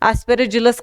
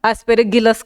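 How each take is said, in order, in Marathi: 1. '-illus' च्या आधीचा व्यंजन मऊ j आवाज आहे. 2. '-illus' च्या आधीचा व्यंजन कठोर g आवाज आहे. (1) "तुम्हाला कसा उच्चार करायचा आहे तुम्ही करू शकतात ऍस्पेरिजिलस करा" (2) "नाहीतर ऍस्पेरिगिलस करा"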